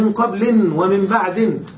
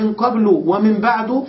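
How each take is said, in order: First: The words end in -in with nunation. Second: The words end in a plain -u vowel. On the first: The following noun is dropped and nothing is intended. "فقد حذف المضاف إليه ولم ينو شيئا" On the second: The words are indeclinable and keep a fixed ending. "فقد بناهما"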